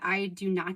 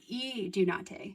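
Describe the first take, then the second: First: The first vowel sounds like 'eye'. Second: The first vowel sounds like 'ee'. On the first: The speaker calls it wrong. "some people pronounce it I do not" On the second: The speaker calls it right. "the I is pronounced as an E"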